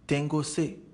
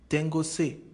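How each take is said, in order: The two takes are said the same way.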